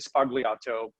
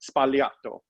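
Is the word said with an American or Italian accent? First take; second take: American; Italian. First: It has an American accent. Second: It has an Italian accent with minimal B. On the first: "if you were American and you went to a bar, you could say Sbagliato" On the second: "they go Sbagliato"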